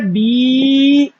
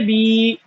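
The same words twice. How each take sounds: First: The vowel is drawn out long. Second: The vowel is short and clipped. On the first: "इसमें खींचते हैं" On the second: "खींचे नहीं"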